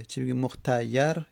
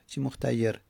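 First: مختیر said mukhtayar, fatha on the ya, rising; مختیر as mukhtayar, open a on the ya. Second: مختیر said mukhtayer, kasra on the ya, falling. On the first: Teacher showing the passive participle form with fatha on مختیر. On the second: Teacher showing the active participle form with kasra on مختیر. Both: Shown as a demonstration. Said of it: "حالا چی فتحه داشته باشه چی کسره".

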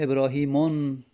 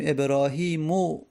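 First: ابراهیمون ending in "-un", with an audible n; wrong tanwin ending. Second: ابراهیمو ending in a plain "u", ebrahimu; no tanwin. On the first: Teacher showing what is not said, ابراهیمون ending "-mun". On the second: Teacher showing the right form, ابراهیمو ending "-mu". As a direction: close ابراهیمو on an open vowel, no n. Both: Shown as a demonstration.

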